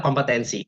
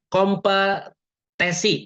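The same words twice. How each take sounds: First: 'kompetensi' with the -ten- syllable sounded; correct word. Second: Very slow 'kompetisi' said in place of kompetensi; wrong word. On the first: Teacher correcting the slip, plain and clear. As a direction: say 'kompetensi' cleanly, kom-pe-ten-si. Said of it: "padahal kompetensi". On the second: Teacher demonstrating a common word slip, slow. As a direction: drag out 'kompetisi', dropping the -ten- syllable. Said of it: "misalnya gini". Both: Shown as a demonstration.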